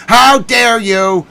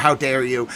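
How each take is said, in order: First: Higher, louder, slow how dare you; drawn-out theatrical outrage; mock outrage. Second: Said in the usual way. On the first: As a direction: stretch it out in hammed-up indignation. Mock outrage, louder second take.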